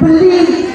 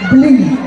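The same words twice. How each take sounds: First: A vowel separates b and l, two syllables. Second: The b runs straight into l, one syllable. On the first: A different word with another meaning. The speaker calls it wrong. "Kalau telat sedikit bunyinya beli" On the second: A respectful way to address a man. The speaker calls it right. "tulisannya maaf B langsung L terus I"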